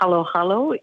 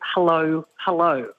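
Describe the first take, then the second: First: Each word sounds like 'halo', with an open 'a'. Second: Each word sounds like the English greeting 'hello'. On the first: The speaker calls it right. "dessert called halo halo in the Filipino world" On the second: The speaker calls it wrong. "you would read it hello hello, which is not quite right"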